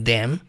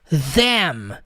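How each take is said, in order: First: The word begins with a D sound. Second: The word begins with a strong TH sound. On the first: "Tem lugares no mundo que eles falam com D" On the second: "com o T H da maneira mais forte possível"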